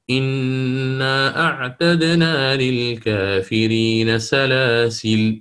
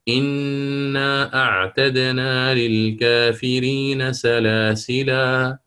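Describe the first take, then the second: First: The last word ends with no final vowel. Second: The last word ends with a long 'a' vowel.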